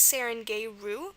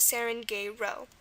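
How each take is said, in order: First: The word ends with an "oo" vowel. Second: The word ends with an "oh" vowel. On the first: "the first pronunciation is" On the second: "the second one is"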